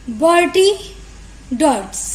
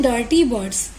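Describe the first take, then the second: First: बर्टी डर्ट्स as a deliberate swapped-sound slip; spoonerism slip. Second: Said in the usual way. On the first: Shown as a demonstration. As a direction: demo the tongue slip बर्टी डर्ट्स, swapping the b and d of dirty birds. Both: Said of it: "हमें बोलना था डर्टी बर्ड्स".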